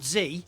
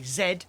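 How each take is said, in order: First: It is said the American way, as zee. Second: It is said the British way, as zed.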